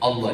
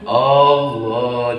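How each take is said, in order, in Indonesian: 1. Vokal pertama pendek. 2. Vokal pertama dipanjangkan. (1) "alif hamzah yang di depan jangan dipanjangin" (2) "jangan Allah, jangan ada dua hamzah"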